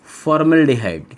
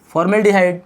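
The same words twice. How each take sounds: First: Drawn-out naming of the term; slow dictation. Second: Said in the usual way. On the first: Shown as a demonstration. Teacher naming the first aldehyde for students, slow dictation. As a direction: stretch the syllables out for note-takers. Teacher introduces new name slowly.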